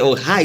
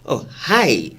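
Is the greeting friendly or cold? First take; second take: friendly; cold. First: The greeting sounds plain and friendly. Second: The greeting sounds cold and reluctant.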